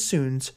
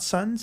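First: The vowel is long, as in soon. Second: The vowel is short, as in sun. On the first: The speaker calls it right. "it is Soons" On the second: The speaker calls it wrong. "it is not Suns"

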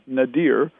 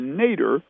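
First: The word ends with a sound like deer. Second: The word sounds like the surname Nader. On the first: "Some people pronounce it Nadir" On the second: "what we call the Nader"

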